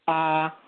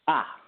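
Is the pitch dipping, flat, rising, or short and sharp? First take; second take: flat; short and sharp. First: The pitch stays level and flat. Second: The pitch is short, sharp and quick. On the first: "the straight tone or the first tone" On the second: "a sharp tone... it's really quick"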